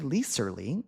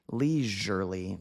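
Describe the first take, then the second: First: The middle consonant is a hissing s sound. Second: The middle consonant is a buzzing z sound. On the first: The speaker calls it wrong. "We don't say leisurely" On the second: The speaker calls it right. "This S sounds like a Z"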